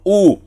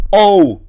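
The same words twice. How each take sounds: First: "U" as one pure "oo" sound; correct single vowel. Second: "O" as a gliding "oh-oo"; wrong diphthong reading. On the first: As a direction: say "U" as a single vowel, without any "o". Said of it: "sino U". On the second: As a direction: stretch "O" into two vowels, "o-u". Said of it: "no es O". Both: Shown as a demonstration.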